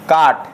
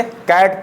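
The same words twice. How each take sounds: First: काट with an open "aa" vowel; wrong long-aa reading. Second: कैट with a front "ae" vowel; short-a pronunciation. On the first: Teacher showing the reading to avoid, aa vowel. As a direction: say काट as the mistaken aa version. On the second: Teacher reading C-A-T for students, correct vowel. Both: Shown as a demonstration. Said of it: "काट नहीं पढ़ेंगे".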